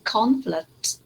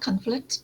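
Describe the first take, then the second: First: Conflict with a clear, full first syllable; correct pronunciation. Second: Conflict as the student mispronounced it; wrong pronunciation. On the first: Teacher modelling the word for students, correct conflict. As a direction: stress the CON of conflict, slowly and clearly. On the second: Teacher showing a student's mistake, mispronounced conflict. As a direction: say conflict with the first vowel off. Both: Shown as a demonstration. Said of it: "not conflict".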